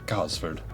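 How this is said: It is said with a British pronunciation. "in England they probably say Gosford"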